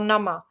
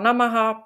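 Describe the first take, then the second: First: The word ends with a short -a sound. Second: The word ends with a full -aha syllable. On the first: "nebo nama" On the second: "jednou ho slyšíme opravdu jako namaha"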